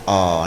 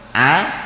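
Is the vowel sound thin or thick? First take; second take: thick; thin. First: The vowel is a thick, rounded 'o' sound. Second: The vowel is a thin, light 'a' sound. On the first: The speaker calls it wrong. "begitu lafzul jalalah jadinya oh. Nah itu yang keliru" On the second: The speaker calls it right. "Wong hamzah fathah bunyinya a"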